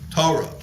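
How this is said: It uses the European Jewish (Ashkenazi) pronunciation.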